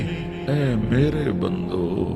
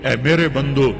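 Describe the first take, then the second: First: It is said in a warm, tender, loving tone. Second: It is said in a plain, neutral tone. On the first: The speaker calls it right. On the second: The speaker calls it wrong.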